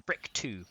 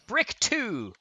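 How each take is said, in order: First: Said in the usual way. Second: High, drawn-out call; mock summoning. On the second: Searching for the block, playful high summoning call.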